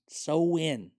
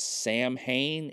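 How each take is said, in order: First: It is said as sow-in, without the middle sounds. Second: It is said as sam-hane, spelled out literally. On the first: The speaker calls it right. "It's really pronounced so in" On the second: The speaker calls it wrong. "if you say that, you're going to sound like an idiot"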